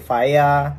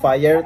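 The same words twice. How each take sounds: First: It is said with a British-style accent. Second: It is said with an American-style accent. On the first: This is how the locals say it. "tapi fire" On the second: This is not how the locals say it. "bukan fire"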